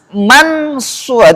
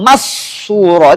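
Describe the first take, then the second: First: The n is pronounced clearly and distinctly. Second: The n disappears into the next consonant. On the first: "Kalau kita izharkan ... itu bunyinya tampak apanya? Nunnya kan?" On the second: "kalau kita masukkan idgham masura itu hilang nunnya"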